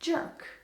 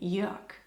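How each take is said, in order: First: The name is said with an American pronunciation. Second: The name is said with a German pronunciation. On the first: "Americans ... would pronounce it jerk" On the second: "the German"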